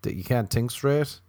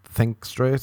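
First: "think" said with a hard t, like "tink"; mispronounced think. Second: "think" with a clear th at the start; carefully fix "think" with a proper th sound; corrected think. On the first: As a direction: slip on "think", saying it as "tink". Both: Real, not acted. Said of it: "You can't even say the word think".

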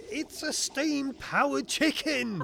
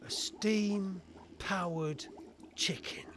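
First: High, slow, emphatic outcry; exasperated protest. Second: Very slow, incredulous repetition; deadpan disbelief. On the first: Inspector throws inventor's boast back at him, exasperated. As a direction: spell out the absurdity at high pitch. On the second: Inspector repeats the inventor's absurd reveal, in slow disbelief. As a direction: drag it out, dropping to a near-whisper on the last word. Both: Acted.

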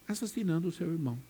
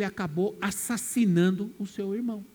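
First: Softer, quick hushed repeat; quiet echo. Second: Said in the usual way. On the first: Shown as a demonstration. Preacher echoes Cain's crime to the congregation, hushed and quick. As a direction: let it drop away like an afterthought. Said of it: "repeated right after". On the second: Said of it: "repeats the phrase as an echo".

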